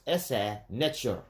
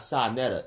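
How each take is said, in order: First: The name's second part sounds like Netcher. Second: The name's second part sounds like Netta. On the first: The speaker calls it right. "That's how he's supposed to pronounce it" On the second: The speaker calls it wrong. "His name is not Sa Netta"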